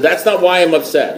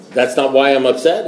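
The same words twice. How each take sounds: First: Higher, worked-up disbelief, falling at the end; mock exasperation. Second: Mildly taken aback, rising at the end; puzzled question. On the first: Caller challenges silent sponsor, acting exasperated. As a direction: act out growing indignation, pitched up. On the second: Retold or imitated. Newcomer questions his sponsor's verdict, mildly puzzled. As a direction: query it back in mild disbelief.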